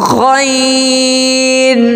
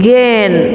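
First: It starts with a scraping sound from the throat. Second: It starts with a hard g, like English 'gain'. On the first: The speaker calls it right. "The correct pronunciation is ghain" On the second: The speaker calls it wrong. "some people pronounce it gain"

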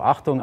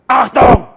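First: It is said in a calm, normal voice. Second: It is shouted in an angry, tense voice. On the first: "einmal normal" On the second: "ich schreie Achtung mit ärgerlicher Stimme"

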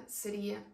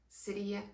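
Both takes have the same delivery.

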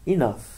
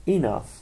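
The two takes are said the same way.

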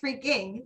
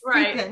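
First: The word ends with a clear g sound. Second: The word ends without any g sound. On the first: "she never says freaking" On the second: "There's never a G at the end"

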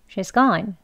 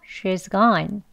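First: The phrase is said at a fast pace. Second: The phrase is said at a slow pace.

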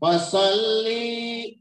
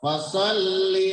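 First: A vowel in the word is drawn out long. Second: The vowels in the word are kept short. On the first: The speaker calls it wrong. "yang masih dipanjangkan ketika membaca" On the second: The speaker calls it right. "padahal dibacanya pendek"

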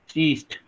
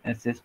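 First: The term begins with an 's' sound. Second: The term begins with an 'ex' sound. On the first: "pronunciation लाऊंगा" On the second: "एसिस्ट बोल सकता हूँ"

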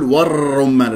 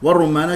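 First: The R sound is trilled repeatedly. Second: The R sound is a single tap. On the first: The speaker calls it wrong. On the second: The speaker calls it right.

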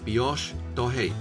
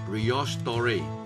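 First: The R is pronounced like an H sound. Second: The R is pronounced like an English R. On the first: The speaker calls it right. "法文的R 可以当做英文的H 来读" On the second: The speaker calls it wrong. "其实可以当佢係英文咁读"

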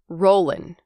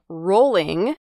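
First: The ending is said with a plain n sound. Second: The ending is said with a full ng sound. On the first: "native speakers drop the G at the end of ing words" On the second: "instead of saying rolling"

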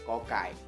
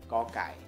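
The two takes are said the same way.

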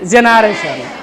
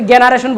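First: The word begins with a j sound. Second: The word begins with a hard g sound. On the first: The speaker calls it right. "কি বলছি? জেনারেশন।" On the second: The speaker calls it wrong. "আমরা কিন্তু জেনারেশন বলিনি"

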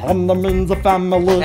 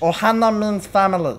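First: It is said in a deeper Stitch-like voice. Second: It is said in a Stitch-like, higher voice.

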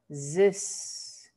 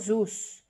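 First: The vowel sounds like a Spanish 'e'. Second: The vowel sounds like a Spanish 'u'. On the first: The speaker calls it right. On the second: The speaker calls it wrong.

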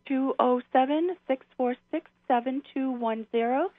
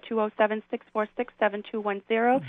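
First: The number is said slowly. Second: The number is said at normal speed.

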